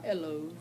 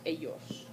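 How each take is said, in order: First: The double L is said like an L. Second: The double L is said like a Y. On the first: The speaker calls it wrong. "so not ellos" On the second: The speaker calls it right. "Double L sounds like a Y"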